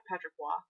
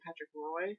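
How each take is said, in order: First: "Patrick Roy" with Roy as "Wah"; Roy rhymed with "wah"; French pronunciation. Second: Put-on "Patrick Roy" with Roy as in "boy"; anglicized "Roy"; English pronunciation. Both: Shown as a demonstration. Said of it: "except they were screaming Patrick Roy".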